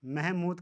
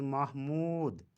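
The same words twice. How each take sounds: First: महमूद said meh-mood; महमूद as mehmood; mispronunciation. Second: महमूद said mah-mood; महमूद as mahmood; correct pronunciation. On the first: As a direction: say महमूद with e in first syllable. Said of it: "का सही तलफ़ुज़". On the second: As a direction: say महमूद with clear a before h. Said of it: "सही तलफ़ुज़ महमूद". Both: Shown as a demonstration.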